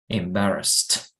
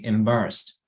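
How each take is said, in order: First: The ending is pronounced strongly and exaggerated. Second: The ending is pronounced softly and lightly. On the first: "I'm exaggerating because people don't say embarrassed like that" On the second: "It's softer"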